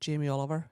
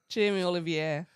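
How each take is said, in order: First: The name is said with a plain English accent. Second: The name is said with a French accent.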